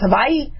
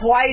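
First: It is said with native Hawaiian sounds. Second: It is said with the usual English sounds. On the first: The speaker calls it right. "it's pronounced Hawaii" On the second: The speaker calls it wrong. "it's not pronounced Hawaii"

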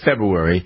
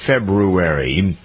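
First: The word is pronounced sloppily and reduced. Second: The word is pronounced carefully and fully. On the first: The speaker calls it wrong. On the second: The speaker calls it right.

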